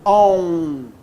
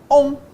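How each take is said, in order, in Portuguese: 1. A sílaba é pronunciada com um som consonantal acrescentado. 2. A sílaba é pronunciada como uma vogal nasal simples. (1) "eu não falo on" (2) "Falo on. Não houve desnível. Só nasalizou a vogal anterior"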